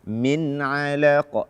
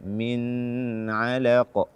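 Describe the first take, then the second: First: The n is released quickly without nasal hold. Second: The n is held long with nasal hum. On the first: The speaker calls it right. "Tidak boleh kita tahan" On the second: The speaker calls it wrong. "tidak boleh"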